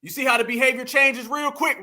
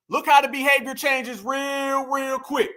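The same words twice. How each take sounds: First: Said in the usual way. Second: "real, real" stretched out long; slow down and draw out each "real" before "quick"; drawn-out REAL. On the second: Real, not acted. Repeats remark, stretching real for emphasis.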